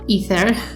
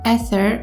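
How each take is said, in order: First: The word has an English pronunciation. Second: The word has a non-English pronunciation.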